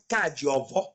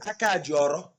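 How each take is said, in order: First: The final syllable begins with a v sound. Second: The final syllable begins with an r sound. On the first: "V instead of F"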